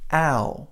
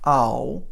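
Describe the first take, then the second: First: "ow" as the American glide; correct vowel take. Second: "ow" with the wrong vowel, slow; wrong vowel take. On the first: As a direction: give the right vowel. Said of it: "it's ow". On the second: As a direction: show which vowel to avoid. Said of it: "It's not ow". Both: Shown as a demonstration.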